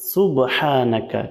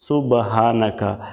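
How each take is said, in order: First: The h is pressed out from the throat. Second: The h is a light, soft breath. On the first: The speaker calls it right. "এখানে বলতে হবে সুবহানাকা" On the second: The speaker calls it wrong. "এখানে আমরা অনেকেই ভুল করে থাকি"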